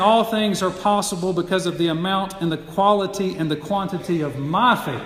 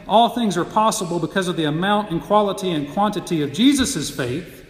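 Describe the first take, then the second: First: My given the weight of the phrase; stress on my. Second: Jesus' given the weight of the phrase; stress on Jesus'. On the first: Preacher contrasting readings for his listeners, stress on my. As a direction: lean on my as the believer's own faith. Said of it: "the emphasis is on you". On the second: Preacher contrasting readings for his listeners, stress on Jesus'. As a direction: lean on Jesus' to show whose faith it is. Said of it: "the emphasis is not on Jesus, but the emphasis is on you". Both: Shown as a demonstration.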